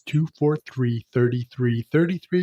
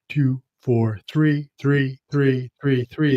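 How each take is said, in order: First: The number is said quickly. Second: The number is said slowly. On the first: "because I rattle it off real quick" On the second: "If I say it slower"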